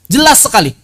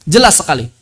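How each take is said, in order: First: JELAS lifted high and firm, a clear teaching stress; emphatic. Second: Said in the usual way. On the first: Shown as a demonstration. Teacher stressing to students how clearly the Prophet read, emphatic. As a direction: press on "Jelas" to drive the point home. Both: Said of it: "jelas antara satu huruf".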